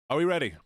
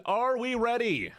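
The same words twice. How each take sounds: First: Said in the usual way. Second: High, slow crowd call; hype call to chat. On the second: Acted. Streamer calling out to chat, hyping them up. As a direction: rev up the crowd like a host. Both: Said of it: "I said".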